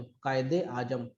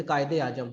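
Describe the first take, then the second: First: कायदे आजम stretched slowly, softer and trailing down; drawn-out repeat. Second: Said in the usual way. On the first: Shown as a demonstration. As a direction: say कायदे आजम at half speed, quietly. Title repeated slowly for the pun.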